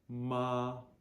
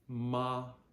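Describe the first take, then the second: Both takes have the same delivery.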